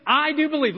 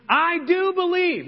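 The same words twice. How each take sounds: First: "do" pressed, raised; stress on do. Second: "do" leaned on, high, slow; stress on do. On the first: Shown as a demonstration. Pastor repeating the father's words, stressing "do". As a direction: lean on "do" in "I do believe". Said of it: "What did he say?". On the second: Acted. Father exclaiming his faith, "do" stressed. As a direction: hit "do" in "I do believe". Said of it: "the boy's father exclaimed".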